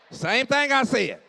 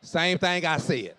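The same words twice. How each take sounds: First: "Same thing I said." again, higher and louder, stress on I; emphatic repeat. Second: Said in the usual way. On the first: Shown as a demonstration. Preacher repeats his point to the crowd, emphatic. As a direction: hammer the I home.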